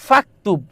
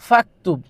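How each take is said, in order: Both takes have the same delivery.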